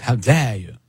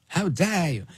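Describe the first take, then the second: First: "How dare you" in a light imitation of Greta Thunberg; half-hearted mock of an indignant activist; lightly voiced Greta Thunberg outrage. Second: Higher, softer mock "How dare you" from an indignant activist; a hint of Greta Thunberg, higher and softer. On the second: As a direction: mimic her outrage, pitched up and pulled back. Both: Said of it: "like Greta Thunberg".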